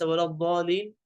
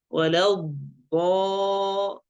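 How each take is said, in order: First: Quick "ولا الضالين", undoubled ḍād; faulty short, unstretched "الضالين"; missing shadda. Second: Slow "ولا الضا-", held doubled ḍād; sustained heavy "ḍaa" in "ولا الضا-"; strong shadda. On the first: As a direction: rush past the ḍ in "الضالين". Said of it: "ليس ولا الضالين". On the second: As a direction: press into the ḍ of "الضا-" and stretch its vowel. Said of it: "تجديد طبعًا". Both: Shown as a demonstration.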